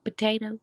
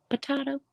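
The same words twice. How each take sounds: First: "Potato" with "tay" in the middle; standard potato. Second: "potato" with "tah" in the middle; potahto variant. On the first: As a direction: say "Potato" as "puh-TAY-toe". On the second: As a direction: say "potato" as "puh-TAH-toe", pitched higher. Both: Shown as a demonstration. Trying two pronunciations of potato.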